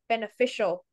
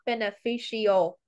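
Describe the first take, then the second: First: The ending is one short 'shul' syllable. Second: The ending is split into two separate syllables. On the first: The speaker calls it right. ""sho" at the end" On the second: The speaker calls it wrong. "not beneficial, incorrect"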